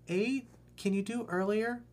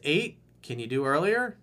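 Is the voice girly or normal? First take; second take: girly; normal. First: It is said in a put-on girly voice. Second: It is said in the speaker's ordinary voice.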